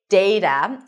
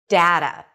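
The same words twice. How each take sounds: First: The first vowel sounds like the one in day. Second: The first vowel sounds like the one in cat. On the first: "with the A as in day" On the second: "with A as in cat"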